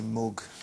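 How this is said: It is said with a northern English accent. "you would say mug ... if you're from the north"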